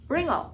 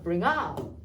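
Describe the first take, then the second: First: The stress falls on the first word. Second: The stress falls on the last word. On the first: The speaker calls it wrong. "이렇게 읽는 게 아니라" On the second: The speaker calls it right. "뒤를 좀 강하게 읽습니다"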